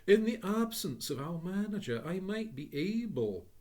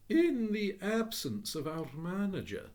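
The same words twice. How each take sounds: First: Higher, louder courteous voice; polite clerk. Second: Higher, slow courteous voice; polite clerk. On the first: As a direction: business voice to a customer. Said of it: "addressing a valued customer". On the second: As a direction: serve a valued customer. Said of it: "as though he were addressing a valued customer". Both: Acted.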